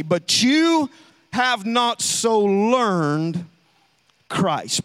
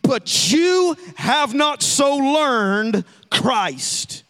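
First: Slow, with pauses between words; pointed rereading. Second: Slow, loud, every word weighted; emphatic scripture reading. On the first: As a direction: stress on have, then a drop on Christ. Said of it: "Look back at verse twenty". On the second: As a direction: proclaim it slowly and loudly. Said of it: "Watch verse twenty". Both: Shown as a demonstration.

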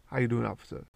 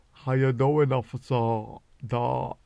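First: Said in the usual way. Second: Louder, put-on innocent greeting to the officer; mock sweet greeting. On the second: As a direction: greet the cop too sweetly. Greeting fishing game officer.

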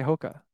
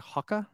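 First: Said in the usual way. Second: "Hoka" with an open first vowel, like "hocka"; first syllable of "Hoka" rhymes with "hock"; British-style Hoka. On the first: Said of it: "they say it like". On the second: Shown as a demonstration. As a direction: say "Hoka" as HAH-kuh, the British way. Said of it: "they say it like Hoka".

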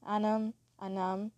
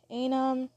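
First: Anam said with an open "a", not "ay"; accented pronunciation. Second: Anam said as AY-num, with a long A; first-try pronunciation. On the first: Podcaster correcting a friend's name, Anam said with the accent. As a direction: say Anam with an open first vowel, AH-nam. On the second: Podcaster reading out friends' names, Anam pronounced AY-num. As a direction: open Anam with "ay", as in day. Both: Shown as a demonstration. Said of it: "that's how you say it with the accent".

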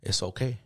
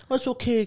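First: Low, soft imitation of grandpa consoling; quietly reassure, pitched down; understated, hushed reassurance; grandpa's quiet comfort. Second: High-pitched mock comforting; imitation of babying someone; mock coddling. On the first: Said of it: "my grandpa comes up to me". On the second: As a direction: coddle in an exaggerated high coo. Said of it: "he didn't come and hug me".

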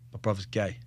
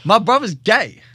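First: Quietly breaking the news; low, soft telling. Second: Loud insistent repeat. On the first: Telling his mate in the car, quiet confiding. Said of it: "I went". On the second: Repeating the news to his mate, loud and insistent. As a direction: shout it so he finally hears. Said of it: "you're not hearing me". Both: Retold or imitated.

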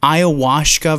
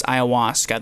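First: "Ayahuasca" with the S slurred into SH; lisped ayahuasca. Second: Said in the usual way. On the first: Shown as a demonstration. Co-host showing his lisped version, S turned to SH in "Ayahuasca". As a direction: say "Ayahuasca" as "eye-uh-WAHSH-kuh". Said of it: "I have a fucking lisp". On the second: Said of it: "Ayahuasca versus ayahuasca".

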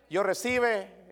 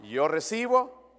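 First: Slow "yo recibe" said as the wrong form; wrong verb form. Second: "yo recibo" said firmly as the right form; corrected verb form. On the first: Pastor demonstrating a wrong verb form, slow wrong "yo recibe". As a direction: drag out "recibe" as the mistake. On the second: Pastor correcting the verb form, firm "yo recibo". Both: Shown as a demonstration. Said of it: "No, yo recibo".

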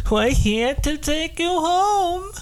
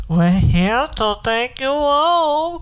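First: High put-on voice of an abductor; alien abductor voice. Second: Slow, drawn-out take of the captor line; slower abductor voice. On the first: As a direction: play the captor come to take him. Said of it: "He's like". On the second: Retold or imitated. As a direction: stretch it out like a menacing captor. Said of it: "it would be like this".

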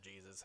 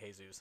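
First: Jesus spoken as "JEE-zus"; English pronunciation. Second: Jesus spoken as "hay-ZOOS"; Spanish pronunciation. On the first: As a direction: give Jesus its English J sound. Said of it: "it's just English saying Jesus". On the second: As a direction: give Jesus an h sound, as in Spanish. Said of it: "arguments about the pronunciation". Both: Shown as a demonstration.

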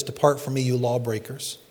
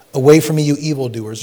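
First: Softer, grave 'Depart from me'; quiet sentence. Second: Loud commanding 'Away from me'; stern rebuke. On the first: Preacher giving the alternate wording to the flock, quiet and grave. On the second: Preacher thundering Jesus' words at the congregation, loud. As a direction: cast them off with force. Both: Shown as a demonstration. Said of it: "Or you can say it like this".

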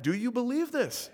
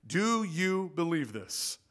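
First: Higher, pressing the congregation for an answer; pressing question. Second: Slow, measured quoting of Jesus' question; slow quoted question. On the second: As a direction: read the question slowly, as scripture. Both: Shown as a demonstration. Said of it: "I think we can do better than that".

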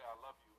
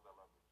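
First: Said in the usual way. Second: Put-on soft, lower I love you to the little boy he was; tender. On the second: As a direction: lower and much softer, tender. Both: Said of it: "I'm telling the little boy that I was".

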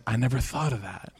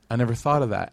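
First: Quiet realization. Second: Said in the usual way. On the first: Retold or imitated. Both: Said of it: "she said".

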